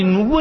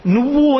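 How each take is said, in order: First: Said in the usual way. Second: నువ్వు said high and loud; stress on నువ్వు. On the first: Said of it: "అని సంబోధించి". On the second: Shown as a demonstration. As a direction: punch the word నువ్వు. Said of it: "అని మాట్లాడు". (నువ్వు అనే పదాన్ని గట్టిగా ఒత్తి)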